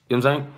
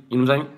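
Both takes have the same delivery.

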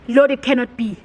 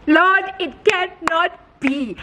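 First: Said in the usual way. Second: Higher and drawn out, word by word; slow, hammed-up cry of disbelief to heaven; dramatic disbelief. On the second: Vlogger seeing the house listed again, dramatic slow disbelief.

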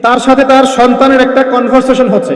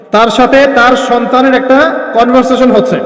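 First: Said in the usual way. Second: Slowed right down for the listeners; slow, emphatic repeat. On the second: Real, not acted. Preacher tells listeners to listen well, slow and emphatic. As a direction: repeat it slowly so it sinks in. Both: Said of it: "এটা ভালো করে শোনেন".

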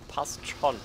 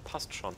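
First: Higher, louder, firmly settled; emphatic reassurance. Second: Said in the usual way. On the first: Shown as a demonstration. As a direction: say it like you mean it. (nachdrücklich beruhigt) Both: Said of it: "repeated with emphasis".

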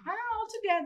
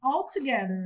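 First: "Ah, all together" sung out much higher, a bright aha of discovery; light up as the word clicks, pitch leaping up; delighted recognition. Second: Said in the usual way. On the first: Shown as a demonstration. Teacher shows a learner suddenly recognizing an English word, much higher aha. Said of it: "aí você fala, ah, all together". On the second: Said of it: "você fala assim".

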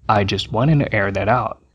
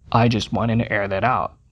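Both takes have the same delivery.

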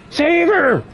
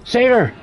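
First: Very high, stretched-out mock plea; escalating mock panic. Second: High-pitched mock cry for help; mock panic. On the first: Killer begs for the dying victim, hammed-up panic. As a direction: draw it out in hammed-up alarm. Repeated plea, higher, drawn out. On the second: Killer pretends to plead for the victim, mock panic.

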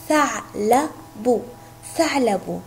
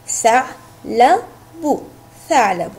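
First: ثعلب said slowly and clearly, syllable by syllable; slow word demo. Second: ثعلب stretched out slowly, then said once more; slow word demo. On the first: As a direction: say ثعلب slowly so each sound is heard. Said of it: "مثل كلمة". (نطق ثعلب ببطء ووضوح) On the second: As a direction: draw out ثعلب slowly for the class. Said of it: "لنقطعها معا". (نطق ثعلب ممدود ببطء) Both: Shown as a demonstration.

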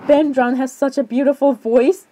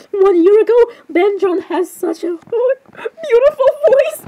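First: Said in the usual way. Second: High, slow, drawn-out squeal; gushing comment reading. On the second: Acted. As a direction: squeal the praise, stretching it out high.

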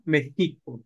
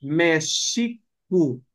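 First: México with a rough j sound; Spanish México. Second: Mexicu said slowly, with sh in the middle; Nahuatl Mexicu. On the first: Teacher showing how Spaniards changed Mexicu. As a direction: say México with a throaty j. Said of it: "terminan diciendo México". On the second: Teacher giving the Nahuatl form of Mexico, slowly. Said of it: "En náhuatl es Mexicu". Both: Shown as a demonstration.

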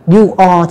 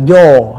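First: "you are" as two full words; both words of "you are" clearly sounded; full form. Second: "your" as one syllable, you're; one drawn-out syllable, "your"; contracted form. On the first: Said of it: "chúng ta đọc đầy đủ". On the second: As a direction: squeeze "you are" into "your". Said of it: "các bạn đọc là". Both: Shown as a demonstration.

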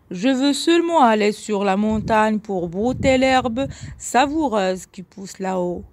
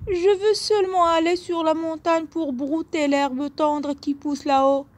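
First: Voix moyenne de bouc, légèrement jouée; deuxième bouc. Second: Voix haute et menue de petit bouc; petit bouc, voix aiguë. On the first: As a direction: expliquer en bouc, sans monter dans l'aigu. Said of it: "répondit le deuxième bouc". (deuxième bouc à voix moyenne) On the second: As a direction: plaider d'une toute petite voix aiguë. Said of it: "de sa voix aiguë". (petit bouc à la voix fluette et aiguë) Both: A narrator's reading.

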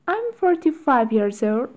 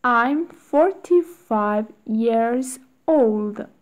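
First: Quick, natural-speed repeat; natural fast speed. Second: Slow, careful drill reading; slow model reading. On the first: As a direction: rattle it off at real speed. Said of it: "faster drill repetition". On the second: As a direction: say it slowly for the class. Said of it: "teacher models drill slowly". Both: Shown as a demonstration.

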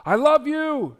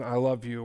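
First: High, loud call out the door; a hurried shouted goodbye to the kids; shouted I love you. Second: Put-on said like you mean it to your child; tender I love you. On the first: Retold or imitated. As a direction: yell it while rushing off. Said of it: "and you shout". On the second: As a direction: say it gently over a kiss on the head. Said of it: "kissing them on the head and saying".

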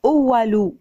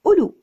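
First: أولو drawn out as "oo-wa-loo"; mispronounced silent waw. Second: أولو said short, as "ulu"; correct silent waw. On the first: Teacher showing how not to say it, أولو as uwalu. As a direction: sound the written waw inside أولو. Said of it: "لا نقول إذا بدنا نيجي ننطقها". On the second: Teacher modelling the word, أولو as ulu with silent waw. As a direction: say أولو quickly with no middle waw. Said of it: "الواو في وسط الكلمة موجودة لكنها لا تنطق". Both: Shown as a demonstration.

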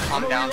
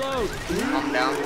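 First: Pitched-up calm down, down high. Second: Said in the usual way. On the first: Real, not acted. To teammates in chaos, high-pitched calm down.

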